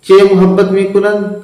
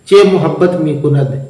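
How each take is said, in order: First: Teacher repeats the Persian line, stressing चे. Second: Said in the usual way. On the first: Shown as a demonstration.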